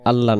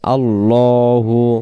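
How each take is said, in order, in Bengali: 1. শব্দটি h ব্যঞ্জনবর্ণের উপর শেষ হয়। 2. শব্দটি u স্বরবর্ণ দিয়ে শেষ হয়। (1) "না" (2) "এই জায়গাতে আল্লাহু"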